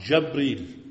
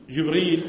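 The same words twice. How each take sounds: First: جبريل said Jabril, short a after jim; fatha on jim. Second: جبريل said Jibril, short i after jim; common reading. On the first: Teacher shows students Ibn Kathir's reading, جبريل pronounced Jabril. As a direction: open the first vowel of جبريل to a, Jab-reel. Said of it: "بفتح الجيم". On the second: Teacher shows students the common Quran reading, جبريل pronounced Jibril. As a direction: say جبريل with a kasra on the jim, Jib-reel. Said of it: "هذه قراءة الكافة". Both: Shown as a demonstration.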